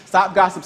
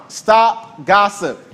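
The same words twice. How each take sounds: First: Said in the usual way. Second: Slow, heavy stop gossip, each word set down; firm command. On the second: Shown as a demonstration. Preacher commanding the church to stop gossip, firm and slow. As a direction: lay down Stop gossip like a rule.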